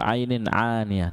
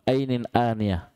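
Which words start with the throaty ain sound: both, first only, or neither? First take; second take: both; neither. First: Both words begin with the throaty ain sound. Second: Both words begin with a plain glottal stop. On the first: "dia sama-sama ain" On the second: "hamzah hamzah juga salah"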